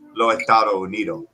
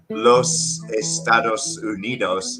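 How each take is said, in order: First: The final S sounds are dropped entirely. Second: Every final S sound is clearly pronounced. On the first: "it becomes" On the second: "instead of"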